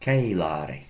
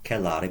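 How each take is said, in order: First: The E vowel is held about twice as long. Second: The E vowel is held short. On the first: The speaker calls it right. "notice the long E. ... Approximately double the length of time to pronounce it" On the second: The speaker calls it wrong. "Not celare"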